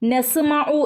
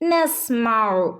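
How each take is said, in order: First: A vowel is sounded right after the s. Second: The s closes the syllable without a vowel. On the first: The speaker calls it wrong. "നസ്മഉ എന്ന് ഓതരുത്" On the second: The speaker calls it right. "ഇവിടെ ഹഫ് സുക്കൂനെ കൊടുക്കാൻ പാടുള്ളൂ"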